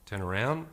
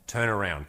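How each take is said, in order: First: The pitch rises at the end. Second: The pitch falls at the end. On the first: The command sounds uncertain. The speaker calls it wrong. "Not turn around" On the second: The command shows clear intent. The speaker calls it right. "with downward tonality"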